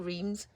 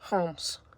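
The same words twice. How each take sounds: First: The name is pronounced the English way. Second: The name is pronounced the French way. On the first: The speaker calls it wrong. "I say Reims, but apparently I don't mean Reims" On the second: The speaker calls it right. "I mean Reims or Reims"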